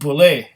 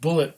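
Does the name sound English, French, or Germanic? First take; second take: French; English. First: It sounds French, ending in an 'ay' sound. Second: It sounds like the English word bullet. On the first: "as if it was a French name" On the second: "a lot of people would just pronounce it Bullet"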